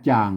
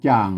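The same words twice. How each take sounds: The two takes are said the same way.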